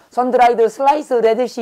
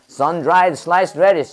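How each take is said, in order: First: Higher-pitched Korean-accented English with added vowels; uncorrected Korean accent. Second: Said in the usual way. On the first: Shown as a demonstration. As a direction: say it syllable by syllable in a labored Korean accent. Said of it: "발음이 교정 안 되면 빨리 말 못해요". (교정 안 된 한국식 영어 발음) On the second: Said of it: "발음을 교정해야 되는 이유는 빨리 말하기 위해서입니다".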